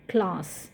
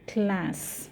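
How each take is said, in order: First: The word is said with a British accent. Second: The word is said with an American accent. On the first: "how do we pronounce class in British English" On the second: "When the same word is pronounced in America, they pronounce it like this"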